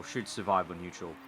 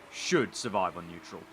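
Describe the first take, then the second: First: Said in the usual way. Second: Should pushed out as the key word, the rest trailing off; stress on should. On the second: Shown as a demonstration. Streamer doubting the damaged engine, leaning on should. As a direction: lean on should to mark the doubt. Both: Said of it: "I'm emphasizing should".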